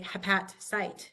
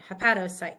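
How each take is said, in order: First: No vowel is heard between hepat and cyte. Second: An o vowel joins hepat and cyte. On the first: The speaker calls it wrong. "we don't want to say" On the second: The speaker calls it right. "We want to say hepatocyte to make it flow"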